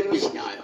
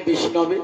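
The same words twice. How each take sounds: First: বিষ্ণায় said as the unlearned form, ending in -আয়, dropped low and soft; mock wrong form. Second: বিষ্ণবে said as the learned form, ending in -বে; the scholar's proper বিষ্ণবে; correct Sanskrit form. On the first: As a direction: imitate the ignorant reader's বিষ্ণায়, lower and softer. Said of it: "আর যারা জানে না তারা কি বলে". (মূর্খের ভুল উচ্চারণে বিষ্ণায়, নিচু ও নরম স্বরে) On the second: Shown as a demonstration. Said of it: "Vishnu শব্দের চতুর্থীর এক বচনে". (পণ্ডিতের শুদ্ধ উচ্চারণে বিষ্ণবে)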